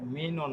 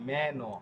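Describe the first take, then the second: First: The first vowel sounds like 'ee'. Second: The first vowel sounds like 'eh'. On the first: The speaker calls it wrong. "মিনো না" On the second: The speaker calls it right. "এটা হবে মেনো"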